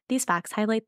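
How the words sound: It is said in a put-on robotic voice.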